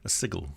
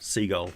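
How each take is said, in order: First: It sounds like 'sij-il', with a short i. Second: It sounds like 'seagull', with a long ee. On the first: This is the word for a magical glyph. The speaker calls it wrong. "Sigil, of course, is a magical glyph" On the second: This is how the city's name is said. The speaker calls it right. "Seagull, like seagull. Uh, like the bird"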